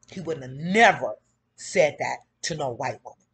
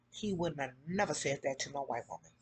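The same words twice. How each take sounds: First: Louder, stress on never; emphatic repeat. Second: Softer, lower under-breath remark; muttered aside. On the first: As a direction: punch it out for the room. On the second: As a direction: say it low to yourself first. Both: Shown as a demonstration. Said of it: "repeated louder".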